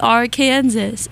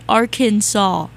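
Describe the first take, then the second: First: The word ends like the word Kansas. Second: The word ends with a 'saw' sound. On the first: The speaker calls it right. "it should be Arkansas" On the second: The speaker calls it wrong. "why is Kansas Kansas and Arkansas is Arkansas?"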